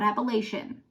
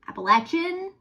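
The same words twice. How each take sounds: First: It uses a different, non-Southwest Virginia pronunciation. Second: It uses the Southwest Virginia pronunciation. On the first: The speaker calls it wrong. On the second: The speaker calls it right.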